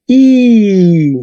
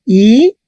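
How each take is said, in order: First: Slow, drawn-out "I"; long I. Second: Said in the usual way. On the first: Shown as a demonstration. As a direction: stretch the vowel "I" long. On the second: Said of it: "Tenemos I".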